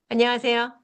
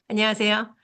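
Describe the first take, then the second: No difference in how they are said.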